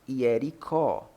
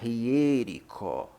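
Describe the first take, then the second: First: The stress falls on the final syllable. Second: The stress falls before the final syllable. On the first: The speaker calls it wrong. "não hiericó" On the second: The speaker calls it right. "Aqui se pronuncia hiérico"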